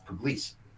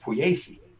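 First: The name is said with Anglicized local pronunciation. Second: The name is said with Italian pronunciation. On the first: This is how locals in the hometown say it. "in my hometown, it's Pugliese" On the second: This is how the name is properly said. "which should be pronounced Pugliese"

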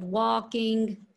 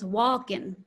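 First: The ending is a full ing sound. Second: The ending drops the g sound. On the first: "instead of walking" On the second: "the dropping of the ing, tends to get dropped for more casual speech"

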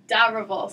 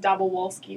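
First: The R sound is pronounced in the name. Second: The R sound is left out of the name. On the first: The speaker calls it right. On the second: The speaker calls it wrong.

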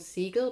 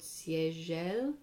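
First: The name is pronounced with German sounds. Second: The name is pronounced with French sounds. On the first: The speaker calls it wrong. "I always thought was called Siegel; German pronunciation" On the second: The speaker calls it right. "apparently it's called Siegel; instead of French"

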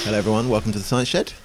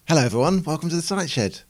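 First: The greeting is said in a flat, bored way. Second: The greeting is said in a lively, upbeat way. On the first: "That sounded a little bit like I was a bit bored" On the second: "Should I try it again?"

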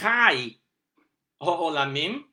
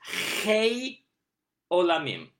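First: The first word has an 'ah' vowel. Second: The first word has an 'ay' vowel. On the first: "with the ah vowel called patach" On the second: "not as Chei, vowel A, called Tzere"

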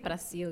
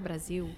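First: The middle consonant is a hissing S sound. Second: The middle consonant is a buzzing Z sound. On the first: The speaker calls it wrong. "you wouldn't say Brazil" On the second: The speaker calls it right. "You say Brazil. there's a Z, a little bit of Z in there"

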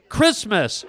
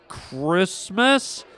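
First: The word is said at normal speed. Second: The word is said slowly and drawn out.

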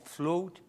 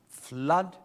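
First: The name is said with a Swedish accent. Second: The name is said with an English accent.

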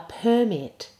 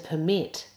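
First: The stress is on the first syllable. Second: The stress is on the second syllable. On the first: It is a noun naming a document. "So this is the noun" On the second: It is a verb meaning to allow. "as opposed to the verb"

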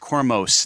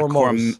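First: The last syllable has a full 'oh' vowel. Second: The last syllable has a reduced 'uh' vowel. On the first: The speaker calls it right. "I'm [name]" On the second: The speaker calls it wrong. "not Kormos. Kormus"

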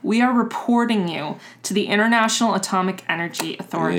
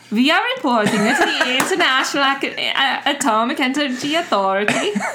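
First: It is said in the speaker's normal accent. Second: It is said in a put-on Swedish accent.

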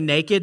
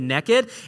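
First: It is said in a standard, neutral accent. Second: It is said in a Southern Alabama accent. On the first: "they don't say naked" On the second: "In Alabama, ... they say naked"

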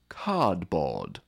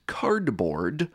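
First: The R sounds after the vowels are dropped. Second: The R sounds after the vowels are pronounced. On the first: The speaker is from a non-rhotic English region. "someone from Manchester ... the latter would say" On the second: The speaker is from a rhotic American region. "someone from Cincinnati ... the former would say"

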